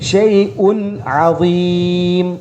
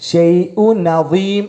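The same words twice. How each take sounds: First: The n and the ayn are both clearly pronounced. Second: The n runs into the next word, replacing ayn. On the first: The speaker calls it right. "രണ്ടും ക്ലിയർ ആയിട്ട് കേൾക്കുന്ന രൂപത്തിൽ" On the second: The speaker calls it wrong. "അദീം എന്നുള്ളതിൻ്റെ ഐന് മാറിയിട്ട് ന എന്നായിട്ട് മാറും"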